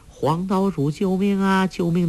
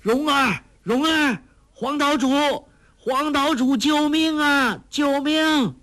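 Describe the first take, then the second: First: Higher, sustained, even calling tone; echo of a shout. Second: Very high, desperate calling from a treetop; loud cry for help. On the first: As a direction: sound like a distant echo of a cry for help. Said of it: "的回声". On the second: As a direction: shout far across the island for help, stretching the calls. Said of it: "高声叫道". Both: A narrator's reading.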